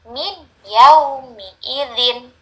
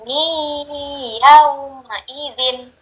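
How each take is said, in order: First: The n is pronounced clearly before the y. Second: The n merges into a nasalized, held y. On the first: The speaker calls it wrong. "bukan min" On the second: The speaker calls it right. "tapi dia menjadi mi yauma idzin"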